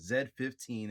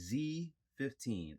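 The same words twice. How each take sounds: First: The letter is said the British way. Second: The letter is said the American way.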